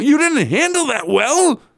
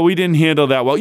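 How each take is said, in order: First: Much higher, mocking disbelief; incredulous echo. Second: Said in the usual way. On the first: Real, not acted. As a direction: throw his words back at him, stunned. Mocking coach's postgame quote. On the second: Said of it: "And he says afterwards".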